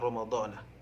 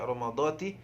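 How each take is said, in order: First: The word ends with the syllable na. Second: The word ends with the syllable ti. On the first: "ataupun Ramadhana" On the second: "jangan dibaca Ramadhati"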